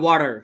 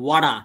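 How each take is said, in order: First: It is said in an American accent. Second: It is said in an Australian accent. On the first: "আমেরিকানে বলবে" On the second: "অস্ট্রেলিয়ানে বলবে"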